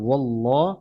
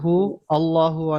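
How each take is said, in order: First: The words are joined smoothly, as wallahu. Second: The words are said apart, as hu allahu. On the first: The speaker calls it right. "তো এটা হবে ওয়াল্লাহ" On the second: The speaker calls it wrong. "কুল হু আল্লাহু অনেক জায়গায় অনেকে বলে"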